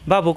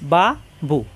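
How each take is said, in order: First: The two syllables are joined quickly without delay. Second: The two syllables are said separately, one by one. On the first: The word is being read as a whole. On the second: The word is being spelled out.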